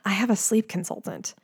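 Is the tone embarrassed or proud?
embarrassed. It is said in an embarrassed, sheepish tone.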